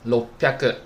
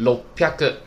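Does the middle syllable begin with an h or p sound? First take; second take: p; p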